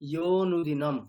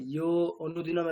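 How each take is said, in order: First: The 'a' vowel before 'nudinam' is dropped. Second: An 'a' vowel is sounded before 'nudinam'. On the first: The speaker calls it right. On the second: The speaker calls it wrong. "অনু অনুদিন আলাদা করে বলবেন না, ইয়ো অনুদিনম এরকম না"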